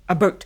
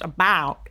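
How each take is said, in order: First: It is said in a Canadian accent. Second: It is said in an American accent.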